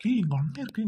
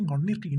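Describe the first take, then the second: First: Higher, sharper indignant retort. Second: Said in the usual way. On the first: Acted. Fiancé indignantly shouting back at the bickering girl. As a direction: snap back at her. Sibling squabble, first retort.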